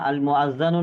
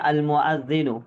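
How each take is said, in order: First: The vowel after the doubled consonant is a. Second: The vowel after the doubled consonant is i. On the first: The speaker calls it wrong. "नहीं है" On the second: The speaker calls it right. "अब यहाँ पर देख सकते हैं अल मुअज्जिनु"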